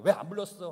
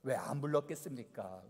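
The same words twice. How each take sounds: First: Louder, sulky hurt question; hurt complaint. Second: Said in the usual way. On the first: Retold or imitated. Ephraimites complaining to Jephthah they weren't called, hurt and louder. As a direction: say it like someone feeling left out. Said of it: "하면서 서운해". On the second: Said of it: "왜 안 불렀어?" 하면서 서운해".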